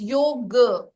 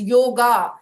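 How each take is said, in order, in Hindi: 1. शब्द का अंत बिना 'ah' स्वर के होता है। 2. शब्द का अंत एक स्पष्ट 'ah' स्वर से होता है। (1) "so without a ah sound" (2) "people mispronounce it as yoga"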